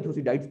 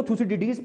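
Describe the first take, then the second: First: थ्यूसिडाइड्स with "-daids" at the end; थ्यूसिडाइड्स, finishing in one syllable "daids"; alternative pronunciation. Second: थ्यूसिडिडीज with "-di-deez" at the end; थ्यूसिडिडीज, finishing in two syllables "di-deez"; alternative pronunciation. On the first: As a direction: end थ्यूसिडाइड्स like English "tides". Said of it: "कहीं थ्यूसिडाइड्स पढ़ लो". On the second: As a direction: end थ्यूसिडिडीज on a long "eez". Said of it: "कहीं को थ्यूसिडिडीज पढ़ लो". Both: Shown as a demonstration.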